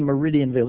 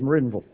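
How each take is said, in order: First: The name is said the non-local way. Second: The name is said the local way. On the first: The speaker calls it wrong. "you don't say Meridianville" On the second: The speaker calls it right. "it's Meridianville"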